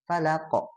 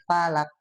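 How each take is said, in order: First: The final consonant is released with an echoing bounce. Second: The final consonant is cut off without a bounce. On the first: The speaker calls it right. "harusnya falaq gitu ya" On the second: The speaker calls it wrong. "itu teh hilang qalqalahnya"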